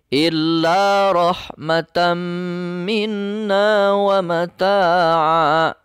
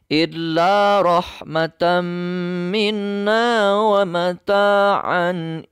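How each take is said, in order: First: The last word ends in a lengthened 'a'. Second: The last word ends in 'an'. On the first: The reciter stops at this word. "ketika wakof harus wa mata'a" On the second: The reciter continues without stopping. "Tidak ada berhenti. Itu dibaca secara wasol. Maka tetap dibacanya an"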